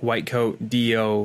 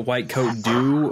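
First: The ending is said as two separate letters. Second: The ending is said as the single word do. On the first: The speaker calls it right. "like standing for something" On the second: The speaker calls it wrong.

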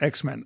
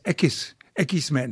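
First: It is said with a plain English accent. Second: It is said with a Spanish accent.

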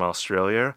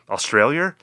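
First: The word is said in the speaker's usual accent. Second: The word is said in a put-on Australian accent.

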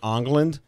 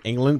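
First: The name begins with an 'ong' sound. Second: The name begins with an 'ing' sound.

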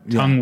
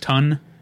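First: The word ends with an ng sound. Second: The word ends with a plain n sound.

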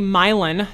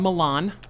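First: The name is said the local way. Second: The name is said the standard way. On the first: This is how the town's name is said. The speaker calls it right. "We also have a Milan" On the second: This is not how the town's name is said. The speaker calls it wrong. "not a Milan"

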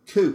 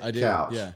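First: The vowel sounds like 'oo' in too. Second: The vowel sounds like 'ow' in cow. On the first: This is how locals in one city say it. "in Portland, couch, that word is pronounced cooch" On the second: This is the usual pronunciation. "And you pronounce it couch"

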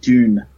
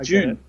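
First: The word starts with a clear 'd' sound. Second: The word starts with a 'j'-like sound. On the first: Listeners understand it as the intended name. "I say like Dune with the duh sound in there" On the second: Listeners take it as the month of June. "I say June, and people"

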